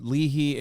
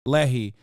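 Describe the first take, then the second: First: "Leahy" said LEE-hee, long ee first; "Leahy" read off the page as LEE-hee; mispronounced Leahy. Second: "Lehi" said LEH-hee, short e first; careful "Lehi", LEH-hee; corrected Lehi. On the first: Real, not acted. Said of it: "am I saying it right?". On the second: Shown as a demonstration.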